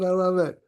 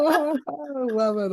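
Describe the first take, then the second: First: Said in the usual way. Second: Slow and high, savour every word; drawn-out delight. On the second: Real, not acted. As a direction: gush with delight, stretched out. Delighted reaction to the videos.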